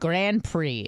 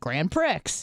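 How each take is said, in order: First: It is pronounced the usual way. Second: It is pronounced as it is spelled. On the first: The speaker now knows how the word is said. The speaker calls it right. "But it's it's the Grand Prix" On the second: The speaker had only read the word and never heard it. The speaker calls it wrong. "I didn't think twice about the pronunciation because I could read"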